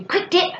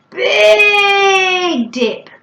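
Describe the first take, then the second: First: "quick dip" short and rapid with a jump up. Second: "big" high, loud and hugely stretched. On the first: Parent modelling describing words, quick and short. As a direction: say "quick dip" as fast as it sounds. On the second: Parent modelling describing words, huge long "big". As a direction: draw "big" right out, then a short "dip". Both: Shown as a demonstration. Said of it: "using such things as describing words".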